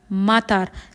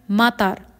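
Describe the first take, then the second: First: The second vowel is kept short. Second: The same.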